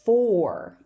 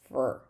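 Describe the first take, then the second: First: The word is said with a full vowel. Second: The word is said with a reduced vowel. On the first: "For is the strong form" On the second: "but it's going to be fur"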